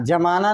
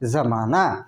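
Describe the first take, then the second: First: The word begins with a 'j' sound. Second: The word begins with a 'z' sound. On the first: It means freezing, as in freezing ice. The speaker calls it wrong. "जमाना नहीं होता है, जमाना हो गया बर्फ जमाना" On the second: It is the borrowed word with a dot under the letter. The speaker calls it right. "ये ज उच्चारण नहीं हो कि ज होगा उसका"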